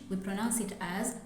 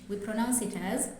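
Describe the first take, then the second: No difference in how they are said.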